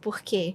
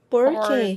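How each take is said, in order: First: The R is soft, in a Carioca accent. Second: The R is said in the local Minas accent.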